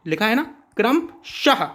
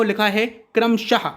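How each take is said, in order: First: Said in the usual way. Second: "क्रमशः" slowed with a clear breathy h at the end; teacher slowing "क्रमशः" to show the visarga; slow visarga demo. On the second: Shown as a demonstration. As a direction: draw out "क्रमशः" so the final h is heard. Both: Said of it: "अह आ रहा है बाद में".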